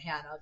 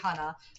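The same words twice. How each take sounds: First: The name does not rhyme with gonna. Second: The name rhymes with the word gonna. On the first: This is how an outsider would likely say it. The speaker calls it wrong. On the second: This is how the name is really said. The speaker calls it right. "rhymes with gonna"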